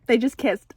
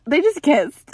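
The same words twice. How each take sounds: First: Said in the usual way. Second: Louder, thrilled repeat with JUST pushed; excited repeat. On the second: Real, not acted. Repeating to viewers that they kissed, louder and thrilled. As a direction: say it again, giddy and louder.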